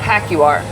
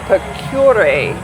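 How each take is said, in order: First: The name begins with a 'pa' sound. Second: The name begins with a 'pe' sound. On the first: The speaker calls it wrong. "It's not Pacuar" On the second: The speaker calls it right. "It's the Pecure"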